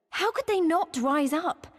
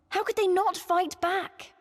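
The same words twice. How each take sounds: First: Higher, slow, indignant question; frustrated anger. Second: Much higher, slow, pained demand; rising frustrated anger. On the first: To a friend about the Domans, slow indignant anger. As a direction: plead in frustration why they won't rise. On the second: To a friend about the Domans, climbing higher indignant anger. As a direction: push the anger further on "they". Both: Real, not acted. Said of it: "the thought of it made me so angry".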